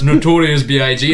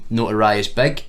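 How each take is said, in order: First: The last part is spelled out as letters. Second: The last part is said as one word. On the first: The speaker calls it right. "you silly bastard, it's it's Notorious B I G" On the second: The speaker calls it wrong. "I like to like mispronounce things"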